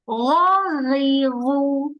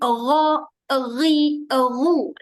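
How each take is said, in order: First: Each syllable is released freely without an added sound. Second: Each syllable is held back with an added e-sound. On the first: The speaker calls it right. "Lepas terus" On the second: The speaker calls it wrong. "Elakkan bunyi ro, ri, ru. Tak nak bunyi e tu"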